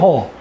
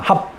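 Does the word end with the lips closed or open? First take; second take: open; closed. First: The word ends with the mouth open. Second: The word ends with the lips closed. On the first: The speaker calls it wrong. "허라고 발음합니다. 허하는데 닫혀요" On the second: The speaker calls it right. "우리는 합하면 닫힙니다"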